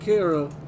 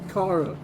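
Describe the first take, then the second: First: The first syllable does not sound like car. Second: The first syllable sounds like the word car. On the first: The speaker calls it wrong. "not Kara" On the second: The speaker calls it right. "like the car that just broke down"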